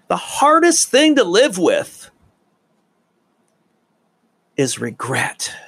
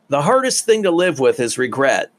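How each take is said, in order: First: It is said with emphasis and pauses. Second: It is said plainly without added pauses.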